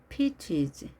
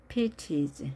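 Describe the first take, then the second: The two takes are said the same way.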